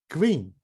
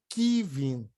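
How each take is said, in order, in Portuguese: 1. O K e o V ficam juntos, sem vogal. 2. Uma vogal separa o K do V. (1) "Tem que sair tudo junto" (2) "nem que vim"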